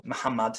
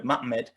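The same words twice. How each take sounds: First: "Muhammad" said as mah-hah-MAHD. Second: "Ma'amed" with no h sound; Hebrew pronunciation. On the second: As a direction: say "Ma'amed" as mah-MED, Hebrew style. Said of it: "It's just a Hebrew word". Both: Shown as a demonstration.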